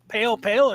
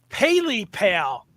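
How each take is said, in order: First: The first part of the name has one syllable. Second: The first part of the name has two syllables. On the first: "That's the way it looks" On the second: "because it, it breaks it up"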